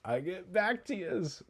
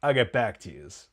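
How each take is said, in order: First: High, soft, drawn-out mock echo; imitation rising high and stretched out; mafia cowboy echo. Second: Lightly voiced gangster line at normal pitch; a hint of gangster impression; mafia cowboy. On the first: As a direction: repeat the gangster's line slowly, pitched up. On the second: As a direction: imitate a mafia cowboy signing off. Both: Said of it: "like, mafia cowboy guy that Bevilacqua plays".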